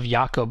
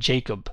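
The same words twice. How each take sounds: First: The word begins with a Y sound. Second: The word begins with a J sound. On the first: "instead of" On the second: "we have"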